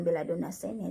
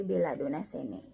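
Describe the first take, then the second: First: "sene" with a doubled n, sen-ne; incorrect double N. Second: "sene" with one short n, se-ne; single N. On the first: Teacher showing what to avoid, "sene" with a long n. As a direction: hold the n in "sene". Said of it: "Jadi bukan". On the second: Teacher correcting the reading, "sene" with one n, lower. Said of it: "N N double dibaca N satu". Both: Shown as a demonstration.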